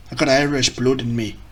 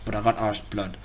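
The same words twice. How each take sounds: First: Badly faked Irish accent; terrible Irish accent. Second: Said in the usual way. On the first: Shown as a demonstration. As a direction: try an Irish lilt and get it wrong. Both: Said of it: "That was terrible as well".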